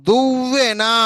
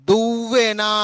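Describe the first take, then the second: Both takes have the same delivery.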